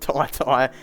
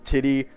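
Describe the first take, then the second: First: It is said like 'Tie-Tie', with long vowels. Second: It is said like 'Titty', with short vowels. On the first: The speaker calls it right. "I'm calling him Ty Ty, which I think is the correct way" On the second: The speaker calls it wrong. "there's guys out here calling him Titty Washington Junior"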